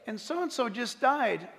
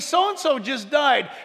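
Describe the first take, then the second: First: It is said in a sad, somber tone. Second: It is said in a cheerful, happy tone.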